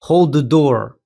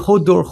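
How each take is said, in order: First: Every word of the phrase is pronounced. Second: The middle word is dropped from the phrase. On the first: This is the original phrase. "Le véritable phrase qu'il a fini par écorcher" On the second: This is the mangled phrase that became a name. "Mais il dit hold door"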